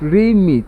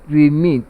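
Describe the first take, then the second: First: The stress is on the first syllable. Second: The stress is on the second syllable. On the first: The word is used as a verb. "if it is a verb, then it is pronounced as remit. And the stress position is on the first syllable" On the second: The word is used as a noun. "if it is a noun, it is pronounced as remit. And the stress fall on the second syllable"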